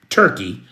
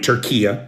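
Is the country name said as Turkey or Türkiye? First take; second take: Turkey; Türkiye. First: The name is said in two syllables. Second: The name is said in three syllables. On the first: The speaker calls it wrong. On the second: The speaker calls it right.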